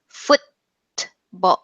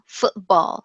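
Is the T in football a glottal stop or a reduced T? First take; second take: reduced T; glottal stop. First: The T is formed but barely released. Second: The T is replaced by a glottal stop. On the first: "we pronounce what you might call a partial or reduced T" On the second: "I heard this like glottal stop"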